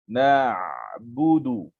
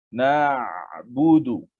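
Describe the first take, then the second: No difference in how they are said.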